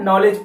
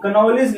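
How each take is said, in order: First: The word starts directly with an n sound. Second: A k sound is heard before the n. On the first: The speaker calls it right. "लेकिन इसको पढ़ते क्या है, नॉलेज पढ़ते" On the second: The speaker calls it wrong. "कनॉलेज लिखा हुआ है"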